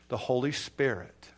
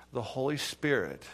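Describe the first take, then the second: No difference in how they are said.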